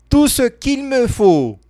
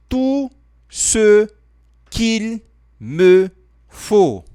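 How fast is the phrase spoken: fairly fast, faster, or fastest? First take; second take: fastest; fairly fast. First: The phrase is spoken at its fastest. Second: The phrase is spoken a little faster. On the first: "Mais rápido" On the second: "Falando um pouco mais rápido"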